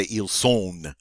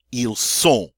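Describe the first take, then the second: First: "ils sont." ending in a hard, audible n; wrongly sounded N. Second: "ils sont." ending on nasal o, no n. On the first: Teacher shows what not to say, N sounded. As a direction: mispronounce "sont" as English-like "sone". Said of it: "but I don't say". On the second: Teacher models the beautiful nasal sound in "ils sont.". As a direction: let "sont" finish in a pure nasal vowel. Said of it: "I get to use a beautiful nasal sound". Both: Shown as a demonstration.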